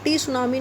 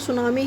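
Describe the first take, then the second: First: A T sound is said before the word. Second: The word begins directly with an S sound. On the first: The speaker calls it wrong. "टी सुनामी नहीं बोलते" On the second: The speaker calls it right. "सुनामी ही बोलते हैं"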